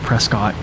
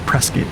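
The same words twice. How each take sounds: First: The second syllable has a full cot vowel. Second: The second syllable is reduced, like kit. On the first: The speaker is from out of town. The speaker calls it wrong. "they can tell if you're an out of towner if you say Prescott" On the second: The speaker is a local. The speaker calls it right. "everybody calls it Prescott. Almost like biscuit, but with a P"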